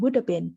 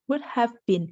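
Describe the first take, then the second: First: The words run together, with 'have' reduced. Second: Each word is said separately, with 'have' fully. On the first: "we would say" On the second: "If you pronounce this word by word"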